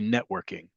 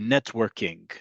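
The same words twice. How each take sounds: First: The middle T is softened and nearly lost. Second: The middle T is pronounced clearly and fully. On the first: "the way I speak American English, I would say networking, right? That T gets sort of lost" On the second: This is how Israelis say the borrowed word. "you'll hear Israelis say networking or networking, right? They'll pronounce the T"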